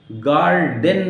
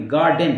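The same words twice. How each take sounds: First: "गार्डन" with a clear R before the D; "गार्डन" said as "gaar-den"; wrong pronunciation, R sounded. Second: "गार्डन" with no R before the D; "गार्डन" said as "gaa-den"; silent R. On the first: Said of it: "नहीं पढ़ेंगे". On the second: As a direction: drop the R inside "गार्डन". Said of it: "आर silent करेंगे". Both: Shown as a demonstration.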